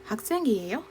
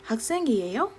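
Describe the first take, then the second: The two takes are said the same way.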